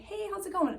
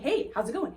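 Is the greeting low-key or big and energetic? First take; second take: low-key; big. First: It is said in a casual, low-key way. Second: It is said in a big, energetic way.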